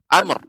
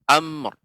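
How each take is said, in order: First: The final sounds are cut short abruptly. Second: The final sounds are fully and completely articulated. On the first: The speaker calls it wrong. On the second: The speaker calls it right.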